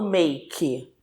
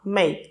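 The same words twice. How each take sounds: First: A vowel is sounded after the final k. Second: The word ends on k with no vowel. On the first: The speaker calls it wrong. "Eu não falo make" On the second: The speaker calls it right. "essa palavra só tem uma sílaba"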